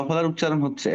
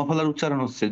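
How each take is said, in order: Both takes have the same delivery.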